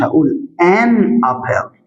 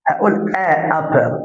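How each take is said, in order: First: "آن أبل" with a clear "an" linking into apple; slow, careful "آن أبل"; correct article. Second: "آ أبل" said with a plain "a" before apple, deliberately awkward; wrong article. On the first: Teacher showing students the right "آن أبل". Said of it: "آ أبل ما تمشيش". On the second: Teacher demonstrating the wrong "آ أبل" to his students. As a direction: tries "آ أبل" to show it doesn't flow. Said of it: "تحسها مش مظبوطة". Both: Shown as a demonstration.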